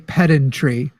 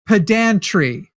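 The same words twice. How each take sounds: First: Its vowels differ from those in pedantic. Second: Its vowels match those in pedantic. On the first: The speaker calls it wrong. "I will never, ever, except for this one moment, say pedantry" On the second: The speaker calls it right. "It should be pedantry"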